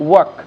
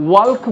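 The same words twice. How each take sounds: First: "ওয়াক" with no l; silent l. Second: "ওয়াল্ক" with the l sounded; "ওয়াল্ক" said with audible l; wrong pronunciation. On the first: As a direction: say "ওয়াক" short, as "wak". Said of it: "এল নীরব থাকবে". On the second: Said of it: "ওয়াল্ক বলবো না". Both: Shown as a demonstration.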